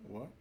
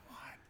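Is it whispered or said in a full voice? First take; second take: full voice; whispered. First: It is said in a full, voiced tone. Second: It is whispered without voice or bass.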